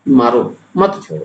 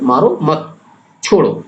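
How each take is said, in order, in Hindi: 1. विराम पहले शब्द के बाद आता है। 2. विराम दूसरे शब्द के बाद आता है। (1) "मारो के बाद अगर आप अर्धविराम लगाते हैं या अल्पविराम लगा देते हैं" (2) "अगर मत के बाद आप अर्धविराम लगा देते हैं, अल्पविराम"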